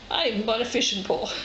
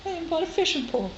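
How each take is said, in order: First: Said in the usual way. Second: Higher and fast, thrilled; proudly showing off her new fishing pole; excited. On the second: Real, not acted. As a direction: blurt it out, delighted with yourself. Repeats line, second time excited.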